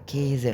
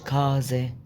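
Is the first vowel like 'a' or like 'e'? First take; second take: e; a. First: The first vowel sounds like e. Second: The first vowel sounds like a. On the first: The speaker calls it right. "لا كيزة" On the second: The speaker calls it wrong. "مش كازة"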